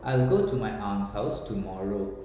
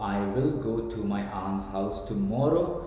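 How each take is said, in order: First: The words 'I will' are contracted. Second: The words 'I will' are said in full.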